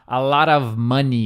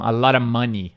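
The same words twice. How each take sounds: First: The word 'of' is fully pronounced. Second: The word 'of' almost disappears. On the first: "Em vez de eles falar" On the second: "eles falam ... o of some"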